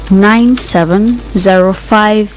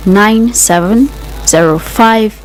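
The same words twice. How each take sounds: The two takes are said the same way.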